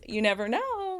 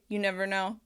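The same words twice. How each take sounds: First: It is said in a livelier, happier tone. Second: It is said flatly, like a robot. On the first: The speaker calls it right. "where I'm sounding a little happier" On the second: The speaker calls it wrong. "like a robot"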